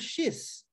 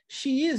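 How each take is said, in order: First: The words merge into one quick syllable. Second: Two full words are said separately.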